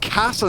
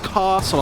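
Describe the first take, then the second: First: The vowel is short, with no r-like sound. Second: The vowel is long, with an r-like sound. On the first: The speaker calls it right. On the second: The speaker calls it wrong.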